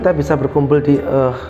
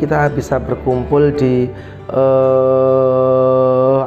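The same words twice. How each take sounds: First: The final filler sound is brief and clipped. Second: The final filler sound is long and drawn out. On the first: The speaker calls it right. "jangan panjang-panjang ngomongnya" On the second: The speaker calls it wrong. "apalagi kalau panjang"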